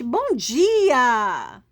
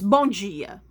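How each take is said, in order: First: It is said with cheerful enthusiasm. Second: It is said flatly, without enthusiasm.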